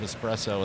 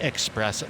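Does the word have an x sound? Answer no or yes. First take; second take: no; yes. First: It is said with an s, no x sound. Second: It is said with an x sound, expresso. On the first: The speaker calls it right. "I say it right" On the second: The speaker calls it wrong. "Don't you mean"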